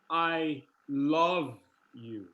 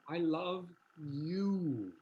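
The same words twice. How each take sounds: First: The word love carries the main stress. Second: The word you carries the main stress. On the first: The feeling is love, not mere liking. "what if we key the second word?" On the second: This person is loved rather than someone else. "not Hannah"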